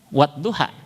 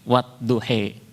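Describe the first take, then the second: First: The final vowel is an open 'a' sound. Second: The final vowel is tilted toward an 'e' sound. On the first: This follows the common Hafs reading tradition. "dalam riwayat Hafiz An Asim kan wadduha" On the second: This follows the Warsh reading tradition. "riwayat Warsh wadduhe"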